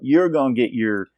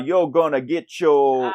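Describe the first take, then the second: First: A real Southern accent says 'your' with r. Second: A fake Southern accent says 'your' as 'yo'.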